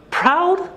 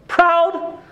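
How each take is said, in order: First: High, sharp disbelieving rise; can't believe the word he just read; incredulous question. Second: High, stunned disbelieving rise; incredulous question. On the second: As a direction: throw the word back in shock. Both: Real, not acted. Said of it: "didn't even know how to respond".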